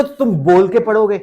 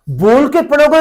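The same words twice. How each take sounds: First: Said in the usual way. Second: "बोल के पढ़ोगे" said again louder and higher, hitting "के"; emphatic repeat. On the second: Shown as a demonstration. Teacher stressing reading aloud to students, louder and higher. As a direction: drive the point home, louder, leaning on "के".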